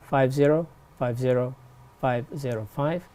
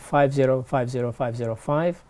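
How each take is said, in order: First: The number is said slowly. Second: The number is said at normal speed.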